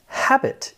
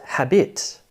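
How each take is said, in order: First: "Habit" stressed on the first syllable, HAB-it; front-stressed "Habit", short second syllable. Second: "habit" stressed on the second syllable, ha-BIT; slow, misplaced stress on the end of "habit"; wrong stress on "habit". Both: Shown as a demonstration. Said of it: "is what you should say".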